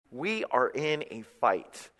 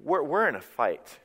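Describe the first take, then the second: First: "We are in a fight" slowly, word by word; emphatic restatement. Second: Said in the usual way. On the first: Real, not acted. Preacher warns the church, "We are in a fight" said deliberately.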